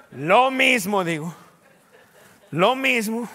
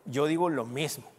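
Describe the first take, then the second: First: Louder and slower, each word pressed; forceful preached repetition; emphatic loud repeat. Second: Said in the usual way. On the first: Acted. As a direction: drive the phrase home to the church. Preacher repeating his reply with force.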